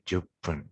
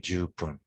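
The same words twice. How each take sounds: First: The first vowel is kept short. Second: The first vowel is held longer. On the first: The speaker calls it right. "we tend to say it with uh, shorter" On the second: The speaker calls it wrong. "we don't say じゅっぷん"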